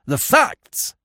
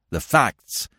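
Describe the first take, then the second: First: Very high, insistent cry; demanding. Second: Higher, irritable demand. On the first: Investigator insisting on facts from the warder, forcefully demanding. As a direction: repeat it as an explosive demand. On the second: Investigator cutting short the warder's excuses, demanding. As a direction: demand it impatiently. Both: A narrator's reading. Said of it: "he demanded".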